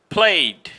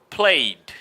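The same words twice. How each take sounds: No difference in how they are said.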